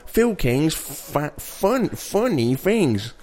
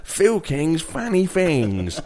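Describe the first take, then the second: First: "funny" carefully said with a u vowel; slow title, stumbling from "fa-" to a deliberate "funny"; correcting the accent slip. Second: "Funny" said like "fanny", drawn out; accented "Funny" with an open a vowel; put-on accent slip. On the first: Acted. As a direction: stretch it out, fixing "funny" mid-phrase. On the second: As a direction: stretch the title slowly, "Funny" sounding as "fanny". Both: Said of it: "When you're doing this accent".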